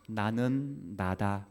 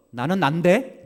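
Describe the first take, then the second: First: Said in the usual way. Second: 나는 난데 louder, rising and indignant; with attitude. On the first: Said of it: "감정을 안 싣고 하면". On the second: Shown as a demonstration. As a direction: snap it back with attitude. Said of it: "감정을 실어서".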